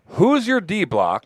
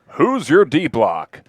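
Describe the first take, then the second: First: It is said in a casual everyday voice. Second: It is said in a put-on newscaster voice.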